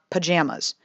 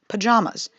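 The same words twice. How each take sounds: First: The middle vowel is a flat 'a' sound. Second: The middle vowel is a broad 'ah' sound. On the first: The speaker calls it wrong. "and not pajamas" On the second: The speaker calls it right. "it is in fact pajamas"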